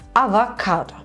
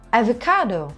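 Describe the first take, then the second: First: It is pronounced with Turkish sounds. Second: It is pronounced with English sounds. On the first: "Türkçe bir kelime değil mi?" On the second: "Ama eğer avokado dersen İngilizce oluyor"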